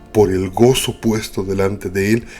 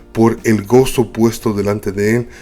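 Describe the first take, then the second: Both takes have the same delivery.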